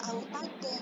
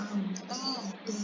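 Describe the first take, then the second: First: AUTADA closed with an n, "autadan"; tanwin reading, rejected. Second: AUTADA with a long open final "a"; long-vowel stop reading. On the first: Teacher showing the wrong stop, short n ending. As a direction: end "autada" short with a sounded n. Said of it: "Dia tidak dibaca autada". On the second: Teacher showing the correct stop, long final vowel. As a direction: stretch the end of "autada", no n. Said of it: "diganti dengan panjang". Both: Shown as a demonstration.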